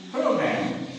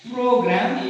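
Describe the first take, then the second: First: "program" with a puff of air on the P; aspirated P. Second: "program" with no puff of air on the P; unaspirated P. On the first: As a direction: say "program" with an airy burst at the start. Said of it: "maintain aspiration exactly". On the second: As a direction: say "program" with a dry P. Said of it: "It's not". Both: Shown as a demonstration.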